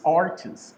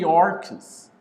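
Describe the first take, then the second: First: "arches" with a ch sound, no hard k; preferred pronunciation. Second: "arches" said the way some people say it, like "arks"; "arches" with a hard k in the middle; alternative pronunciation. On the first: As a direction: say "arches" with ch as in church. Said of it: "but it's arches". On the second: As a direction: say "arches" with a k sound for the ch. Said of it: "Some people say arches". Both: Shown as a demonstration.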